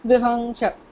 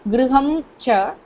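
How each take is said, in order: First: The two words run together without a break. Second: There is a break between the two words. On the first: "If you want to pronounce it continuously, then anuswara has to be there" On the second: "If you decide to give a break, makara has to be pronounced"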